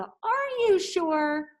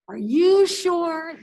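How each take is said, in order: First: "Are you sure?" slow, rising on "you"; questioning inflection. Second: "Are you sure?" slow and loud, "you" stressed; emphatic inflection. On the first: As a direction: stretch "you" upward in doubt. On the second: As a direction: punch "you" hard and loud. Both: Shown as a demonstration. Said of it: "that inflection really changes the tone".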